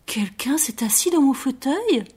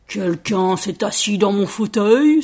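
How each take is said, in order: First: Mama Bear's gentle voice. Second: Slow, booming storybook bear; Papa Bear's big voice. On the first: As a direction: ask gently, in a higher pitch. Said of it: "dit maman ours d'une voix douce". (voix douce de maman ours, plus aiguë) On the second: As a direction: cry out slowly as an indignant big bear. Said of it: "s'écria papa ours d'une très grosse voix". (très grosse voix de papa ours, lente) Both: A narrator's reading.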